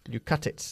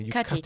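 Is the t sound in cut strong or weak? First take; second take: weak; strong. First: The t in cut is soft and weak. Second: The t in cut is strong and clear.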